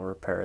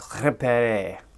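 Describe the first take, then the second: First: It is said with a plain English pronunciation. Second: It is said with a French-sounding pronunciation.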